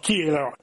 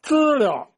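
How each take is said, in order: First: It is said in Tianjin dialect. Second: It is said in standard Mandarin.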